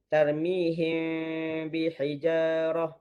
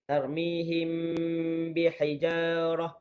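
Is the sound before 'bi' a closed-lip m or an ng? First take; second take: ng; closed lips. First: The sound before 'bi' is an ng sound. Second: The sound before 'bi' uses closed lips. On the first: The speaker calls it wrong. "dia bunyi N G" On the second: The speaker calls it right. "Sepatutnya kena tutup bibir"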